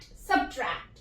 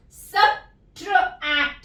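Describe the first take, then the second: First: Said in the usual way. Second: subtract drawn out slowly and clearly; slow model word. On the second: Shown as a demonstration. Teacher models subtract slowly, then normally. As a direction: stretch subtract for the class to copy. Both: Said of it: "तो हम इसको कैसे पढ़ेंगे".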